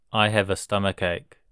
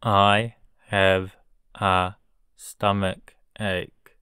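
First: Said in the usual way. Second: I have a stomach ache at half speed; slow model sentence. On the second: Shown as a demonstration. Teacher modelling a sentence for learners, very slow. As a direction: spell it out slowly for the class. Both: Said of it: "teacher drilling vocabulary".

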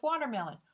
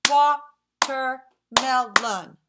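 First: Said in the usual way. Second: "Watermelon" in four slow, loud beats; "Watermelon" chopped slowly into four; syllable by syllable. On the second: Shown as a demonstration. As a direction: clap out "Watermelon", one syllable per clap. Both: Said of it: "as we say them, let's clap".

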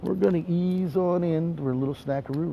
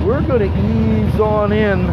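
First: Eased-down aside. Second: Slow, projected announcement; full-voiced, leisurely hype; drawn-out promo call. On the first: Acted. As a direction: drop the hype and slide in gently. Same words repeated, eased right down. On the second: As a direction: stretch it out in a big promo voice. Promo voice, then eased-off repeat.

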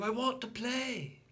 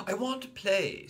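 First: Put-on higher childish demand; high repeated I want; insistent little boy repeat. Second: Put-on high loud childish demand; high whiny I want; insistent little boy. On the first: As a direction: insist again stubbornly. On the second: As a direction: insist stubbornly. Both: A narrator's reading.

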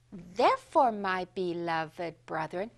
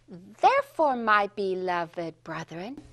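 First: "Therefore"で一拍、"beloved"をゆっくり伸ばす; 子どもに復唱させる手本; modeling for echo. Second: "Therefore"で一拍、"beloved"をゆっくり伸ばす; 指を鳴らす前の手本; modeling for echo. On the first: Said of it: "You say it after me". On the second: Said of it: "When I snap my fingers". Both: Shown as a demonstration.

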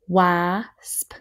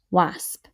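First: "Wasp" split into wa and sp; sounded out. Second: Said in the usual way. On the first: Shown as a demonstration. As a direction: sound out Wasp slowly in parts. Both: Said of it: "Let's do our next row".

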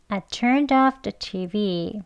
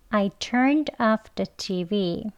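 First: "I turned off the T V" with "turn-doff" joined; linked words. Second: Very slow "I turned off the T V"; slow, word by word. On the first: Teacher modelling liaison in the sentence, linked words. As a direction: join "turned off" within the slow sentence. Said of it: "이렇게 연음하셔서요". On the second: Teacher leading learners through the sentence, slow word by word. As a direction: give "turned" and "off" each their own space. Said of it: "천천히 같이 해볼게요". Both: Shown as a demonstration.

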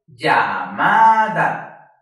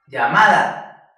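First: "Llamada" very drawn out and loud, syllable by syllable; dividida por sílabas. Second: "Llamada" as one slow word, loud on "ma"; stress on MA. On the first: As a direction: hold each syllable of "Llamada", swelling on "ma". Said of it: "Aquí dividimos llamada por sílabas". ("Llamada" muy lenta y fuerte, sílaba por sílaba) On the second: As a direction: punch the middle "ma" of "Llamada". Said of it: "Ma es la sílaba que más fuerte suena". ("Llamada" con golpe fuerte en "ma") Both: Shown as a demonstration.

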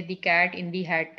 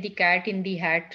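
First: The cat in the hat broken into dictionary chunks, slowly; slow segmented example. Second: Each word said slowly and apart; slow read-out example. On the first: Teacher showing students how matching cuts the phrase. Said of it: "dictionary के साथ match करके". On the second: Teacher slowly reading the example to students. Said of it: "So अगर आप English में देखें". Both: Shown as a demonstration.

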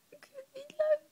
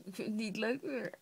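First: High whispered whine; whiny whimper. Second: Said in the usual way. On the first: Real, not acted. (jammerend fluisterend)

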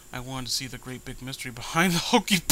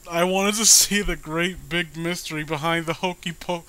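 First: Said in the usual way. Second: Reading on, louder and higher, still giggling; real giggles spilling into the words; laughing through it. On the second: Real, not acted. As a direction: try to read the line but the laugh won't stop. Rereads line while still laughing.

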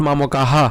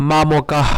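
First: মামকাহা with a full extra "ha" at the end; mistaken pronunciation. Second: মামকাহ ending in a breath of h; visarga pronunciation. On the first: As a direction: say মামকাহা wrongly, adding a vowel after h. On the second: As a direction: say মামকাহ with no vowel after the h. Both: Shown as a demonstration. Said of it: "not মামকাহা".

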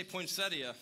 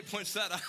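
First: "poinsettia" called out as poin-SET-ee-uh; higher and louder, "poinsettia" ending in ee-uh. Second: "poinsettia" called out as poin-SET-uh; higher and louder, "poinsettia" ending in plain -tuh; poinsettia without the i. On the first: Pastor polling the congregation, "poinsettia" loud with ee-uh ending. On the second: Pastor polling the congregation, "poinsettia" loud with -tuh ending. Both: Shown as a demonstration. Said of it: "like, a rowdy debate here".

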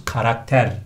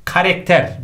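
First: KARAKTER with two a sounds; correct pronunciation. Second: KARAKTER as "karekter"; common mispronunciation. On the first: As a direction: say karakter as ka-rak-ter. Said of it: "olması lazım". (karakter doğru, a ile) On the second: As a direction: say karakter with e in the middle. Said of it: "çok yanlış kullanıyoruz". (karakter yanlış, "karekter") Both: Shown as a demonstration.

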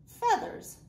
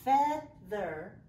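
First: Feathers said high and louder; excited word. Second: Said in the usual way. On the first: Shown as a demonstration. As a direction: sing out Feathers with delight. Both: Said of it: "Let's say it together".

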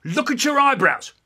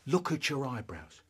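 First: High, loud sudden command; accusing dad. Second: Said in the usual way. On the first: Acted. Dad catching son in a lie, accusing. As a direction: pounce on the lie. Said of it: "He says".

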